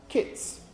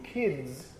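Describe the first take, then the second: First: Kits with a voiceless final t-s; voiceless ending. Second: Kids slowed, ending in a voiced d-z. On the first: Teacher contrasting a pair Germans confuse, kits with short vowel and voiceless ending. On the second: Teacher contrasting a pair Germans confuse, kids with long vowel and voiced ending. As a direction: draw out kids with a buzzing final "dz". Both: Shown as a demonstration. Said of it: "differentiating in English between kids and kits".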